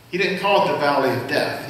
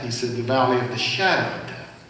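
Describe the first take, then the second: First: Said in the usual way. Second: "shadow" leaned on, a touch lower and softer; "shadow" gently weighted to set it against "valley of death"; stress on shadow. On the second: Shown as a demonstration. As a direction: bring out the word "shadow" clearly.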